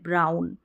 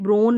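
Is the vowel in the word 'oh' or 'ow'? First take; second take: ow; oh. First: The vowel sounds like ow. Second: The vowel sounds like oh. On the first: The speaker calls it right. "ब्राउन यानी भूरा जो colour होता है" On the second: The speaker calls it wrong. "ब्राउन में ब्रोन नहीं बोलेंगे"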